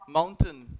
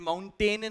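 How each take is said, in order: First: The final syllable sounds like 'ton'. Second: The final syllable does not sound like 'ton'. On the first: The speaker calls it right. "ton की ध्वनि अंत में" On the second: The speaker calls it wrong. "ये mountain नहीं है"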